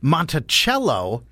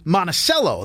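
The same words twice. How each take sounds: First: It uses the local Virginia pronunciation. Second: It uses the local Maine pronunciation. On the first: This is how the Virginia estate's name is said. "will be cringing because they know it's Monticello" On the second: This is how the Maine town's name is said. "They say Monticello. That's how you say it"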